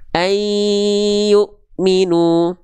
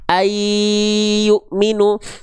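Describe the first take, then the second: First: The n is held two beats, nasalized. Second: The n has no nasal resonance. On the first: The speaker calls it right. "Harusnya ditahan dulu dua harokat" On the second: The speaker calls it wrong. "nggak masuk hidung, nggak sengau dia"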